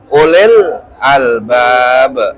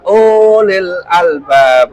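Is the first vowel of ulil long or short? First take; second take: short; long. First: The first vowel is kept short. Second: The first vowel is drawn out long. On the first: The speaker calls it right. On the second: The speaker calls it wrong.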